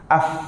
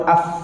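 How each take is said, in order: Both takes have the same delivery.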